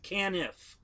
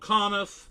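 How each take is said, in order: First: The first syllable sounds like the word can. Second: The first syllable sounds like the word con. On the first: The speaker calls it right. "can, like a tin can, canif" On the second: The speaker calls it wrong. "named Conniff with an O ... I've been called Conniff"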